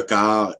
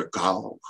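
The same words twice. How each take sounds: First: Said in the usual way. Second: "corps" said with a dark rounded back a; grave back A. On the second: Shown as a demonstration. Lecturer giving example, "corps" with grave back a. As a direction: deepen the vowel of "corps". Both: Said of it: "un A qui est prononcé un peu grave".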